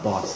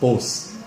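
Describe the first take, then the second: First: The vowel is an open ah sound. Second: The vowel is a long O sound. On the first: The speaker calls it right. "The O is not an O, it's an ah" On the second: The speaker calls it wrong. "want to say it with a long O sound"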